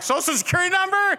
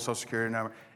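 First: It is said in a changed, marked tone. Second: It is said in the same casual, even tone. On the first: It is a sensitive, unusual request. The speaker calls it wrong. "not like" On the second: It is just another routine question. The speaker calls it right. "Same tone"

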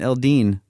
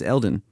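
First: The name ends with a 'dine' sound. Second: The name ends with a 'don' sound. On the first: The speaker calls it wrong. "I thought I was pronouncing it Eldine this whole time in my head" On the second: The speaker calls it right. "so it's Eldon"

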